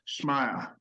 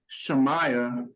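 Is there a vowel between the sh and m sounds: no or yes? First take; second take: no; yes. First: The sh runs straight into m, no vowel. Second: A short e vowel separates sh and m. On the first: This is the true pronunciation of the name. "the pronunciation of her name is really Shmaiah" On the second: This is the easier, commonly used way to say it. "we'll say Shemaiah"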